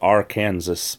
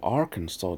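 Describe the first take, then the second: First: The ending sounds like the word Kansas. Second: The ending does not sound like Kansas. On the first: The speaker calls it wrong. "I thought it was pronounced Arkansas because there was Kansas" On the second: The speaker calls it right. "Oh, Arkansas"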